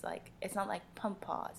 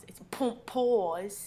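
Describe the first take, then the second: First: Said in the usual way. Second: "pump pause" said slowly and stretched, rising on "pause"; drawn-out pump pause. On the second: Shown as a demonstration. Host teaching co-host the segment name voice, slow and drawn out. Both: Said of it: "you have to say it in that voice".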